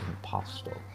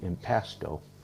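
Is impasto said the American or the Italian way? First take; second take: Italian; American. First: It is said with an Italian pronunciation. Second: It is said with an American pronunciation. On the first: "I believe in Italy it would be impasto" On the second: "I think Americans would say impasto"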